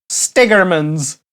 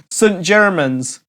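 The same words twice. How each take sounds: First: Stigerman's, slow, run together "STIG-er-mans"; joke pronunciation. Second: Saint Germans, slow, "saint JER-mans"; slow careful Saint Germans; correct pronunciation. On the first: Host savours the railway mistake, slow. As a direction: relish the mangled Stigerman's. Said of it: "I kinda like that". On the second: Host says the real name slowly. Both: Shown as a demonstration.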